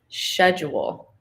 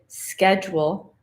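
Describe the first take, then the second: First: It is said with a British pronunciation. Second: It is said with an American pronunciation.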